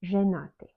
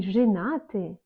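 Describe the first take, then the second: First: "женаты" with a full e in the first syllable; spelling pronunciation. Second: "женаты" with the first e as a short i; reduced E. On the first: Teacher showing the written E, spelling pronunciation. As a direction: say "женаты" as written, zhe-naty. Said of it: "mais on écrit Y". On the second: Teacher showing how unaccented E sounds, reduced E. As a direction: say "женаты" as zhinaty. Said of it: "on prononce comme I". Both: Shown as a demonstration.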